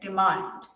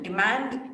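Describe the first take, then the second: First: It is said with a British accent. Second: It is said with an American accent. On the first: "That's British" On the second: "that will become American"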